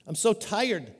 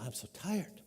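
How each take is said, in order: First: Said in the usual way. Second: Much softer, drained little sigh of a mom; exhausted mom. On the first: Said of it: "He says". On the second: Retold or imitated. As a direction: let it sag out like a worn-out mother. A worn-out mom answering.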